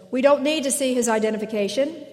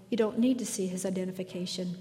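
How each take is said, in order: First: Louder and higher, quick robotic echo; entranced trooper. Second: Quietly assured and softer, a touch quicker; lightly voiced Obi-Wan, soothing the guard; calm Jedi command. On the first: Retold or imitated. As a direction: parrot it back like a hypnotized guard. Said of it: "the entranced trooper says". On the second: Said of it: "Obi-Wan Kenobi says calmly".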